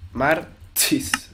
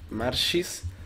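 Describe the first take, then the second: First: The middle consonant is a sharp 'ch' sound. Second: The middle consonant is a soft 'sh' sound. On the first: "Con TX" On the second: "con SH"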